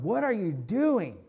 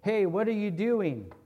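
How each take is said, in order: First: It sounds like a sharp, accusing challenge. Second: It sounds like a casual, curious question.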